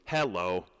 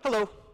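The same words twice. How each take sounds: First: The word is stretched into two even, separate beats. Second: The word is said quickly as a single beat. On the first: The speaker calls it wrong. "That's weird. I don't say that" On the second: The speaker calls it right. "It's one flap"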